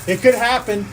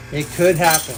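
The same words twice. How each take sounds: First: Said in the usual way. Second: Much lower, spooky warning; ominous low voice. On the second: Shown as a demonstration. Streamer teasing chat with a Pig Latin stream, ominous low. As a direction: make it sound like a dark threat.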